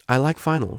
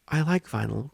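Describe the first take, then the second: First: Student finally owning her feelings, beaming; starting to beam. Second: Said in the usual way. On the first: Acted. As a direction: say it with a growing smile. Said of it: "she said, starting to beam". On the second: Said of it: "starting to beam".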